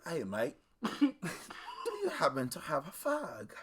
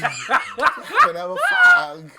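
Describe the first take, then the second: First: Lightly voiced drunk Brit asking politely; mock British accent, casual request; drunk British man. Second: Loud, high mock-British repeat; drunk British man. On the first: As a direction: imitate a tipsy UK bloke. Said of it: "this guy from the U K". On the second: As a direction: blare it in a mock UK accent. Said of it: "he was wild drunk".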